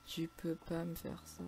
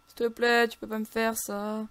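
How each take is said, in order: First: Soft, slow, drawn-out begging; resigned, fading lament; deflated plea. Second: Loud, higher, drawn-out begging; desperate whining plea; pleading wail. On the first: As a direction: let the plea sink away quietly. Same plea repeated, deflated. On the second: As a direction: beg with stretched vowels. Begging the game not to kill. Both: Real, not acted.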